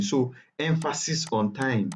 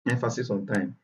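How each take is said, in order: First: "emphasis on time" said slowly, each word weighted. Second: Said in the usual way. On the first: Shown as a demonstration. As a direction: lean on "time", slow and deliberate.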